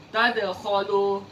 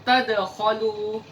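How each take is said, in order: No difference in how they are said.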